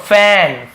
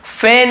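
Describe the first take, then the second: First: "फैन" held on a wide ae; correct open-ae vowel. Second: "फैन" turned into fen; wrong ay vowel. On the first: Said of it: "ये जो ए है ना". ("फैन" को खुले ऐ से) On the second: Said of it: "फैन नहीं बोल रहा हूँ". ("फैन" को ए से, फेन) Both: Shown as a demonstration.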